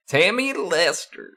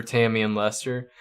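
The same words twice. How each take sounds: First: Much higher southern twang; put-on southern accent. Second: Said in the usual way. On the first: Shown as a demonstration. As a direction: try out a high-pitched southern character voice. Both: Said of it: "I need to talk like that".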